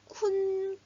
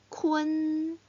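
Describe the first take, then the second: First: A plain u vowel runs straight into n. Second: A faint e-like vowel comes before the n. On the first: The speaker calls it wrong. "쿤 하고 읽을 것 같지만" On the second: The speaker calls it right. "읽을 때 은 소리가 살짝 날 거예요. 들어보세요"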